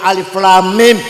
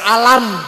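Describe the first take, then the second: First: Each letter name is said separately in full. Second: The letters are blended into one short word. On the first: The speaker calls it right. "dengan ilmu tajwid kita tahu ini baca alif lam mim" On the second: The speaker calls it wrong. "Kalau nggak ada ilmu tajwid"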